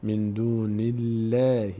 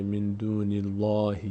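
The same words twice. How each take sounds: First: من دون الله with a thin "nillæh"; correct light lam. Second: من دون الله with a thick, dark "llāh"; wrong heavy lam. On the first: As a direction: slowly recite الله with a light l and front vowel. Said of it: "پر خونده نمیشه". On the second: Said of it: "نمیشه من دون الله". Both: Shown as a demonstration.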